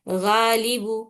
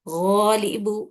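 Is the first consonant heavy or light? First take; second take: light; heavy. First: The first consonant sounds light and thin. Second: The first consonant sounds heavy and full. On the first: The speaker calls it wrong. "ये गलत है" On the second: The speaker calls it right. "मोटा मोटापा लेके आना उसके अंदर, जुबान की जड़ उठा के। ... ये सही तरीका है"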